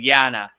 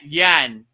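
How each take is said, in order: First: The word ends with a final vowel. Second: The word ends without a final vowel. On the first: "instead of yana" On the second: "dropped the A"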